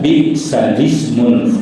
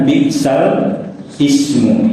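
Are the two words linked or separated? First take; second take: linked; separated. First: The two words run together without a break. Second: The two words are kept apart with a break. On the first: The speaker calls it right. "Bacaannya bi'salismul" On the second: The speaker calls it wrong. "kalau tulisannya bi'sal ismu"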